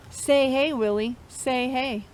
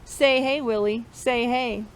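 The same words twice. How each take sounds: The two takes are said the same way.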